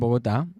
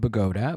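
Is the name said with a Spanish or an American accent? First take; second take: Spanish; American. First: It is said with a Colombian Spanish accent. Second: It is said like an American white girl.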